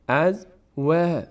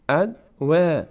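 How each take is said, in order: First: The vowel after w sounds thin and light. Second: The vowel after w sounds thin and light.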